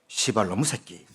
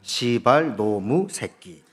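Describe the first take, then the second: First: The words are said quickly, merging into one. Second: The words are loosely run together, not rushed. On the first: "빨리 말하면" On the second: "대충 붙여서 말하면"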